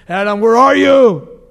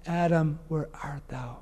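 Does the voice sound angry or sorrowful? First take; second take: angry; sorrowful. First: The voice sounds angry and stern. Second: The voice sounds broken and tearful. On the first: The caller is furious with the one who hid. The speaker calls it wrong. "God's angry" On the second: The caller grieves and longs for the one who hid. The speaker calls it right. "It's a voice of a broken father crying for his children"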